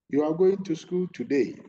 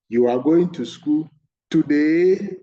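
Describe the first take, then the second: First: The pitch does not rise on the final word. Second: The pitch rises high on the final word.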